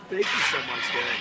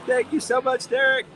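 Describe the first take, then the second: First: Said in the usual way. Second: High, loud, delighted thank-you; excited thanks. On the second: Real, not acted. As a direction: gush your thanks. Thanking a tipper on stream.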